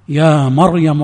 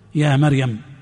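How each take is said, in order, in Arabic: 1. صوت الراء مفخم وثقيل. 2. صوت الراء رقيق وخفيف. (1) "والصواب العكس فيهما" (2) "ويرقق راء مريم فيقول يا مريم"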